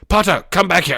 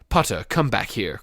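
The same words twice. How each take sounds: First: It is shouted loudly. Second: It is said in a calm, plain voice.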